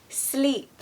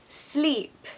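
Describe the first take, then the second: Both takes have the same delivery.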